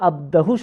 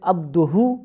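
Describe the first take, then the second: First: The vowel after abd is a. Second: The vowel after abd is u. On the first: The speaker calls it wrong. "সে মনে করতো এই এখানে আব্দুহুর জায়গায় আব্দাহু সঠিক" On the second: The speaker calls it right. "আব্দুহুর জায়গায় আব্দাহু"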